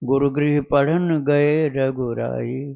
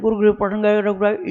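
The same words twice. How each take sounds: First: The line is recited at a moderate pace. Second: The line is recited at a fast pace. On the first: The speaker calls it right. "इतना speed रखना" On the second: The speaker calls it wrong. "इतना जल्दी जल्दी भी नहीं करना"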